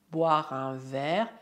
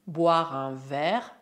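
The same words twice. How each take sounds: The two takes are said the same way.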